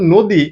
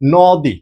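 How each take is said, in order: First: The first vowel is a closed 'oh' sound. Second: The first vowel is an open 'aw' sound. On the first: "এখন তুমি উচ্চারণ করতেছো নদী" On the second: "but তোমার হওয়া উচিত ছিল কি ভাইয়া?"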